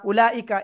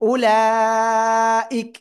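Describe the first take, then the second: First: The word ends with a final short vowel. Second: The word ends on a bare consonant. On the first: The reading continues past this word. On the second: The reader stops at this word.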